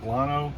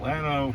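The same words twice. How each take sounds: First: The name is said with a Spanish pronunciation. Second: The name is said with a Texan English pronunciation. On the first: This is how the name is said in Spanish. "the Spanish pronunciation would be more like Lano" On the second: This is how locals in Texas say the name. "we call it Lano here in Texas"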